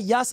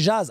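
First: The name begins with a 'y' sound. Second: The name begins with a 'dj' sound. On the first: The speaker calls it wrong. "ça se dit pas Yas" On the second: The speaker calls it right. "ça se dit Jazz"

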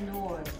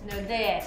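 First: The name is said as one English-style syllable. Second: The name is said with Spanish sounds, rhyming with Lourdes. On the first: The speaker calls it wrong. "They say in English, they say it as nords" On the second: The speaker calls it right. "It's like saying Lourdes"

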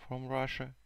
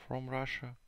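The two takes are said the same way.

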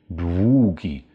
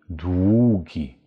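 The two takes are said the same way.

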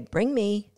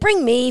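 First: The phrase is said in a calm, neutral voice. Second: The phrase is said with high excited energy. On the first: The speaker calls it right. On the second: The speaker calls it wrong.

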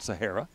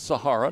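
First: The name is said in its second pronunciation. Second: The name is said in its first pronunciation. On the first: This is a common but mistaken way to say the name. The speaker calls it wrong. "not Sahara" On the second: This is how the player's name is really pronounced. The speaker calls it right. "it is Sahara"

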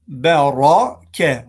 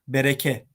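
First: The r is said heavy and thick. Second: The r is said light and thin. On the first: The speaker calls it right. "Ra kalın" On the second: The speaker calls it wrong. "Bunu ve bereke gibi okumayalım"

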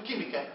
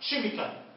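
First: The word begins with a k sound. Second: The word begins with a ch sound. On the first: The speaker calls it right. "لما تلاقي السي مع الاتش نفوسها ك" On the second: The speaker calls it wrong. "ليش ما بقولش كيميكال؟"

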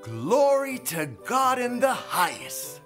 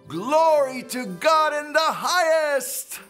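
First: It is said at normal volume. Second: It is said louder.

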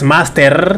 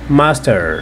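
First: It has a Spanish tapped R sound. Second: It has an American English R sound. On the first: The speaker calls it wrong. "Con esa R de nosotros" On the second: The speaker calls it right. "sino la R de los gringos"

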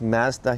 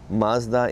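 First: Mazda is said with a Canadian pronunciation. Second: Mazda is said with an American pronunciation. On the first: "pronounced Mazda here in Canada" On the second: "Mazda in the US"

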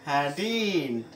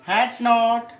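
First: Said as one short contracted word. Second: Said as two separate full words.

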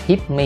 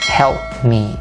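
First: The word sounds like hip, with no L. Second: The word has an open vowel and an L. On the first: The speaker calls it wrong. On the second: The speaker calls it right.

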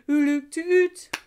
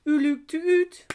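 The two takes are said the same way.

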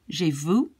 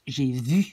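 First: The vowel is a relaxed, English-like oo sound. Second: The vowel is a tense, tightly rounded French u. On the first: The speaker calls it wrong. "when I hear English people pronounce it" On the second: The speaker calls it right. "You put a lot of tension in your lips, in your mouth"

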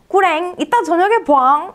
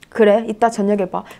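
First: The tone is soft and playful. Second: The tone is stiff and flat. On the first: The speaker calls it right. "이렇게 해주지" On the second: The speaker calls it wrong. "근데 이거 너무 딱딱하지 않나요? 이 말투?"

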